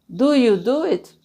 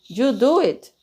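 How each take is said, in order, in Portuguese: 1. É dita devagar, com cada palavra bem pronunciada. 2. É dita rápido, com "do you" reduzido.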